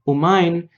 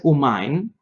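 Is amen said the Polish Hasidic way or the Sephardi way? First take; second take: Polish Hasidic; Polish Hasidic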